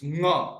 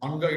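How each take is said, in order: First: It starts directly with the nasal sound. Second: A vowel comes before the nasal sound. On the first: The speaker calls it right. "It's nga. It's a nasal sound" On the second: The speaker calls it wrong. "That is wrong. Anga, it is not anga"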